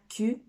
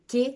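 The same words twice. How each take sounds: First: It is said as the French letter name. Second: It is said as the Portuguese letter name. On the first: The speaker calls it wrong. "c'est pas Q" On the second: The speaker calls it right. "c'est Q"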